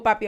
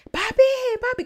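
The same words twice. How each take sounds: First: Said in the usual way. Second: "Papi, papi" yelled high and loud in a panic; desperate yelling. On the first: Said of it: "porque yo le digo". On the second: Retold or imitated. A girl calling her father at night, desperate high yell. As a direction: cry out for your dad, desperate and much higher. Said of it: "como desesperada, gritándole".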